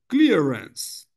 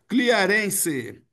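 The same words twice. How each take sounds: First: The word is said in two syllables. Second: The final e is said as an extra syllable. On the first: The speaker calls it right. "Duas sílabas" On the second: The speaker calls it wrong. "qual a tendência do, do controlador?"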